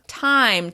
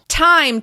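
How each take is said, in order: First: The T has a strong but normal puff. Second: The T is spat out very forcefully. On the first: The speaker calls it right. "This strong T sound is perfectly fine" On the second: The speaker calls it wrong. "when you say the T sound too forcefully, it can sound aggressive"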